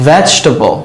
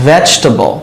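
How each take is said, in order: Both takes have the same delivery.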